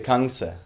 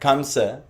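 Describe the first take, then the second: First: The first syllable ends in an 'ng' sound. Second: The first syllable ends in an 'm' sound. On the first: The speaker calls it right. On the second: The speaker calls it wrong.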